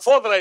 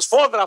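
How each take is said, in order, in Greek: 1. Η λέξη αρχίζει με τον ήχο f. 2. Η λέξη αρχίζει με τον ήχο s. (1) "φόδρα είπε" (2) "Σωστό, σφόδρα"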